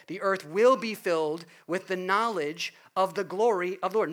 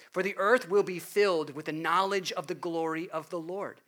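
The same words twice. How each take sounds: First: "will" stressed, louder and fuller; louder reading with "will" stressed. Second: "will" stressed with a falling tune. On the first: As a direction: proclaim it again, pressing on "will be". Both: Shown as a demonstration. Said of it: "Notice the emphasis on will be".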